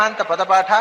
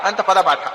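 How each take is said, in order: No difference in how they are said.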